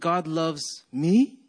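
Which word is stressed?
me. The stress is on me.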